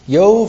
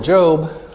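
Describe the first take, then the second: First: It begins with a Y sound and ends in V. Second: It begins with a J sound and ends in B. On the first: This is the Hebrew pronunciation. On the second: This is the English pronunciation.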